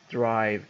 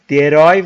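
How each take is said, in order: First: The word has an English pronunciation. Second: The word has a Persian-style pronunciation. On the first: The speaker calls it right. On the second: The speaker calls it wrong.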